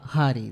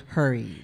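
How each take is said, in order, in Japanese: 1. 普通の日本語の発音で言われています。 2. わざとらしい英語風の発音で言われています。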